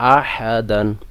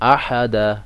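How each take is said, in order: First: The word ends with an n sound. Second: The word ends on a vowel, without n. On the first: The reading continues without stopping. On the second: The reader stops on this word.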